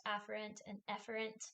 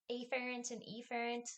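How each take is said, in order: First: "afferent" as AFF-er-ent, "efferent" as EFF-er-ent; short-vowel pronunciation. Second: "afferent" as AY-fair-ent, "efferent" as EE-fair-ent; long-vowel pronunciation. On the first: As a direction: keep the first vowels of "afferent" and "efferent" short, nearly alike. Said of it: "it's actually pronounced". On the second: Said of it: "I think it's actually pronounced". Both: Shown as a demonstration.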